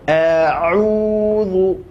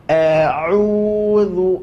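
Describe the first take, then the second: Both takes have the same delivery.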